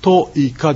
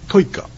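First: The i sound is pronounced the Japanese way. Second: The i sound is pronounced the Ainu way. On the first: The speaker calls it wrong. "トイカではなくて" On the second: The speaker calls it right. "トイカというように発音すると、あのアイヌ語らしく聞こえます"

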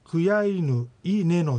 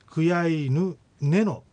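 First: A bare i vowel without h precedes neno. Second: Nothing comes between kuyaynu and neno. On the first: "クヤイヌイネノになって" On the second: "さらにそのイが落ちてクヤイヌネノと発音された"

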